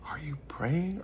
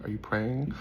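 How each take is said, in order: First: Urgent whispered question. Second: Said in the usual way. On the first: Shown as a demonstration. Preacher presses the audience with a whispered question. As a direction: lean in and whisper it.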